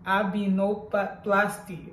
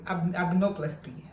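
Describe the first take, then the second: First: "Abinoplasty" said slowly and stumbling, dropping the "dom"; mispronounced. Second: False start "ab-", then "abdominoplasty" said in full; self-correction. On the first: Patient stumbling over her surgery's name, slow and unsure. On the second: Patient correcting herself on the surgery name after a false start. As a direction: restart and land "abdominoplasty" correctly. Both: Real, not acted. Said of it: "For me to say this name is complicated".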